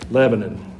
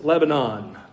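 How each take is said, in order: First: The name has a Middle Tennessee local pronunciation. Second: The name has the usual wider pronunciation. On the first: "we're in Middle Tennessee, so it's pronounced Lebanon" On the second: "Growing up in Georgia, it was Lebanon"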